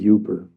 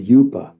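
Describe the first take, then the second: First: It is said in a local American accent. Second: It is said in an English accent.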